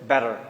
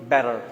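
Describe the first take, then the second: The two takes are said the same way.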